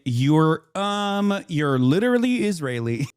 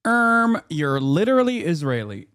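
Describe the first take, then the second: First: Lightly mocking, pitch lifted on "um"; mock pedantic interjection. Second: Mock pedantic interjection. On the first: Streamer once again correcting the Israeli guest, mildly mocking interjection. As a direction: point out the obvious with an awkward "um". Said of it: "I'm gonna once again say". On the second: Streamer butting in on the Israeli guest, exaggerated pedantic mockery.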